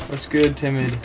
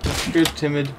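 No difference in how they are said.

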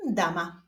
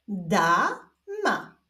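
First: Said in the usual way. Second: Stretched first syllable, pause, then second; drawn-out, divided syllables; syllable reading. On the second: Shown as a demonstration. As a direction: read it slowly as two separate syllables. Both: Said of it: "zapraszam Was do odczytywania sylab".

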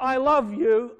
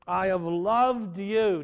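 First: "love" said high and loud as the rejected reading; wrong tense. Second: "loved" held slowly as past tense; stress on loved. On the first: Preacher to congregation, sharp dismissive "love". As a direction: set "I love you" up as the wrong form. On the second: Preacher to congregation, slow stress on loved. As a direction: draw out "loved" in "I have loved you". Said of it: "Now notice the words". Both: Shown as a demonstration.

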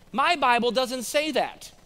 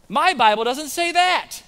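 First: Lightly voiced lady, higher and slower; a hint of an old lady objecting, drawn out; imitated old lady. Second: High, loud, slow mock protest; imitated objecting lady. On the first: Dear old lady objects in class. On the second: Another lady objects, more forcefully.

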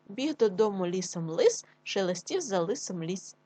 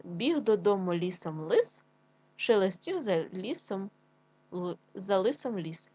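First: Said in the usual way. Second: Slow, deliberate tongue twister; slow teacher read for children; slow careful reading. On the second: Shown as a demonstration. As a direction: read it slowly, word by word. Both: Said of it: "Ще раз".

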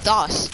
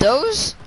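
First: "dos" with an open aw vowel and an s ending; spelling pronunciation. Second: "those" with a long O and a z ending; usual "those" pronunciation. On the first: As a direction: say "dos" to rhyme with "floss". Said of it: "Do you not know how to spell those?". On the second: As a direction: say "those" to rhyme with "nose". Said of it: "It says dos". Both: Shown as a demonstration.

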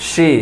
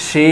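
First: সি said "shi", short i; short vowel. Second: সি said "shee", long held ee; stretched vowel. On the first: Teacher showing harakat, short "shi" for সি. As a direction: cut সি off quickly with a sh sound. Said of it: "টান দেই না". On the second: Teacher showing madd, long "shee" for সি. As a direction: draw out সি with a sh sound. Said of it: "একালি পরিমাণ টান দিই". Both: Shown as a demonstration.

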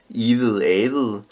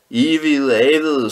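First: Said in the usual way. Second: Higher, louder, drawn-out shout of "Ivede avede"; children shouting. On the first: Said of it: "Vil I høre om den". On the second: A narrator's reading. A child shouting "Ivede avede" at the storyteller, high and loud. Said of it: "skreg nogen".

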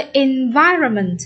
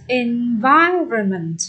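First: Said in the usual way. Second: "Environment" very slow, stretched on -VI-; stress on second syllable. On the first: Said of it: "Nhấn âm". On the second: Shown as a demonstration. Teacher showing where stress falls, slow stress on second syllable. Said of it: "Nhấn âm hai".

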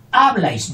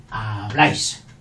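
First: HABLÁIS misstressed as HÁ-blais, high and loud; wrong first-syllable stress. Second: HABLÁIS with weight on BLÁIS, lower; correct final stress. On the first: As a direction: punch HA in Habláis. (Habláis mal acentuado en HA) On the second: (habláis con fuerza en BLÁIS) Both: Shown as a demonstration. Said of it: "no, habláis".

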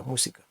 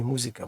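First: "мусіка" said with a voiceless S; S instead of Z. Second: "музика" said with a voiced Z; "музика" with З in the middle; wrong Z sound. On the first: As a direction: correct Spanish "мусіка", hissed С in the middle. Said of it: "немає звука з". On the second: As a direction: demonstrate the mistake, a buzzing З in "музика". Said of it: "немає звука з, не музика". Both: Shown as a demonstration.

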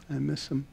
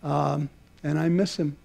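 First: Much softer, fading repeat of "I miss him"; a quiet, wistful repeat; softer echo. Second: Said in the usual way. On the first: Real, not acted. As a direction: let "I miss him" drop to a near hush. Closing tribute, repeated line.

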